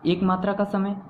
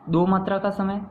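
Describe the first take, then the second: First: एक spoken short, one beat. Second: दो held for two beats. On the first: Teacher counting one matra for students. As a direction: tap out एक as a single beat. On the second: Teacher counting two matras for students. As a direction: stretch दो over two beats. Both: Shown as a demonstration. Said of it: "देखें".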